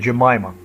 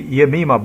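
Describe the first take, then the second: First: The name is said in a British way. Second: The name is said in a non-British way. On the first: "In British, you say Jemima" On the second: "We say Yemima Begum, but might be wrong"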